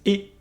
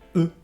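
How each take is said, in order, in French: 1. La voyelle est un son 'é' fermé antérieur. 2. La voyelle est un son 'eu' arrondi. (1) "se prononce E" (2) "et non E"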